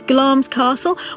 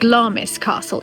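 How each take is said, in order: First: Glamis is not pronounced the way it is spelt. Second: Glamis is pronounced the way it is spelt. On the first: The speaker calls it right. "It's Glamis Castle" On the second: The speaker calls it wrong. "don't pronounce it Glamis Castle, even though that's how it's spelt"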